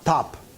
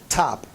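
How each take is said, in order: First: The t is released without a puff of air. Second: The t is released with a puff of air. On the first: The speaker calls it wrong. "Not top" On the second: The speaker calls it right. "This is with aspiration"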